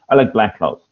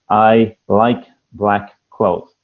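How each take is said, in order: First: The words flow together in one smooth chunk. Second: Each word is separated by a small gap.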